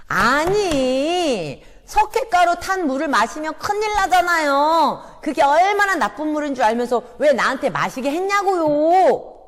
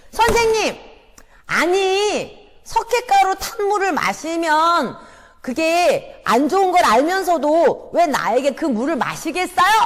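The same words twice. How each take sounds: First: Loud, high complaining shout with a sob; accusing shout. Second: Loud, high accusing shout at the teacher; shouting boy. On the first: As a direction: wail the accusation at the teacher. Sunder repeats accusation. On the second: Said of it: "이렇게 소리 지르는 거예요". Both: Acted.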